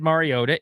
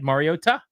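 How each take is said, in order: First: The T is soft, not strongly pronounced. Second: The T is hard and clearly pronounced. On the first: The speaker calls it wrong. "not said Mariota" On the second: The speaker calls it right. "it's said Mariota"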